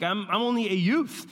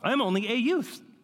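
First: It is said in a natural voice. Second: It is said in a put-on old man's voice.

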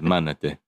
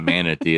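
First: The word has a Romanian pronunciation. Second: The word has an English pronunciation. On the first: The speaker calls it right. "you got to say it like this" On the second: The speaker calls it wrong. "It's not manatee"

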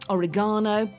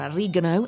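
First: It is pronounced the British way. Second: It is pronounced the American way.

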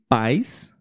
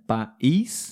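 First: The stress is on the first syllable. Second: The stress is on the last syllable. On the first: It means parents. "a sílaba tônica na primeira palavra" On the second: It means a country or nation. "a sílaba forte na última"

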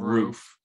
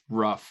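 First: The vowel is a long oo sound. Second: The vowel is short, like in rough.

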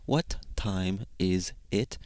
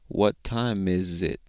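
First: Each word is said separately and clearly. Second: The words are blended into one connected phrase. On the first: The speaker calls it wrong. "we don't really say" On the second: The speaker calls it right. "We kind of just blend it together"

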